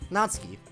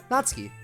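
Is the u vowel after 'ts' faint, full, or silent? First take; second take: faint; faint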